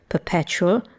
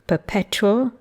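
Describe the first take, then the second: First: The t and y merge into a ch sound. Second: The t is followed by a separate y sound. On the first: "everyday forms" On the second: "formal, extremely careful forms"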